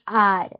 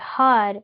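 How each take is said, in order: First: The word begins with no H sound. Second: The word begins with an audible H sound. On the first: The speaker calls it right. "this has a silent H" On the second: The speaker calls it wrong. "a lot of times we mispronounce these words"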